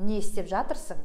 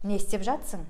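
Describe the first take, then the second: First: Every syllable of the full verb is clearly pronounced. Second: The helper verb is shortened, dropping a syllable. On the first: This is the careful, textbook way to say it. "это я вам красиво читаю" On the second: This is how people say it in everyday speech. "в разговорной речи сами же казахи говорят"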